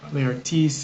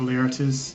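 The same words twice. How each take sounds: First: The name is pronounced in a fancy, elaborate way. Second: The name is pronounced in a plain, ordinary way.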